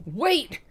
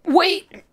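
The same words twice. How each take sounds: First: Gasped. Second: Sharp loud cry, much higher; shouted. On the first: Acted. Wounded Peter gasping after his brother, feeble. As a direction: gasp it weakly after him. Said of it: "Peter gasped". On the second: Shown as a demonstration. Narrator trying the line as a loud cry. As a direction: call out to stop him.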